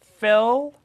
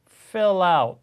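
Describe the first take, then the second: First: "Fill" cut off sharply before "out", no linking; "Fill" chopped off on its own, the wrong way; choppy cut-off. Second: "fill out" run together as "fi-lout", slowly; "fill out" linked smoothly, slow and clear. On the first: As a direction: stop dead after "Fill", wrongly. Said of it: "쫙 끊어서 out 이렇게 하는 게 아니죠". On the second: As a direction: glide the L of "fill" into "out". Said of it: "요게 요렇게 연결되면서 fill out 이렇게 되죠". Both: Shown as a demonstration.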